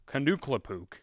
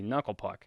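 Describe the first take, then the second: First: The name is said with distorted, extra syllables. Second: The name is said in its usual form. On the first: A joking mispronunciation of the band's name. The speaker calls it wrong. "he pronounces them wrong and tries to be funny" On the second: The band's actual name. The speaker calls it right. "It's obviously"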